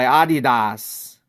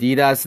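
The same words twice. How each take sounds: First: Adidas slowly as AH-dee-dahs; drawn-out German Adidas, AH-dee-dahs; German pronunciation. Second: Adidas said uh-DEE-duhs; American pronunciation. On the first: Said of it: "the German way". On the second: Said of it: "since you live in the United States". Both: Shown as a demonstration.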